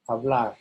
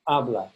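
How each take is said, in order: First: The stress is on the last syllable. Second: The stress is on the first syllable. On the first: The speaker calls it right. "the A R ending is stressed" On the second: The speaker calls it wrong.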